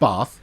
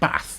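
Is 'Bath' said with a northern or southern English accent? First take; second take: southern; northern. First: It is said in a southern English accent. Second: It is said in a northern English accent. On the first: "because uh, I'm a southerner" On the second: "If I was a northerner, I'd pronounce it"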